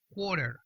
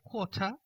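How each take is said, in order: First: American accent, T flapped, final R pronounced. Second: British accent, final R dropped, ending like 'a'. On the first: "la pronunciación estadounidense... en vez de una T como una R" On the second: "la pronunciación británica... desaparece la R"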